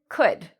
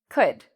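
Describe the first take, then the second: No difference in how they are said.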